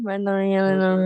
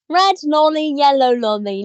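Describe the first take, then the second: First: It is mumbled with the mouth nearly closed. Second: It is said poshly with the mouth wide open.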